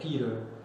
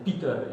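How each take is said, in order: First: The name is said in a smooth English way. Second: The name is said in a rugged Dutch way. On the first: "instead of" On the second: "pronounced more ruggedly as in"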